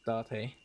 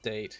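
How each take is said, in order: First: The name is said with Japanese pronunciation. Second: The name is said like the English word date. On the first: The speaker calls it right. "The Japanese pronunciation of the word" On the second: The speaker calls it wrong. "It's not date"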